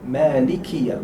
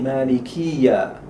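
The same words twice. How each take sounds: First: The vowel after the k is short. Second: The vowel after the k is long. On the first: The speaker calls it right. "al kaf has no mad" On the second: The speaker calls it wrong. "We should not say Malikiya"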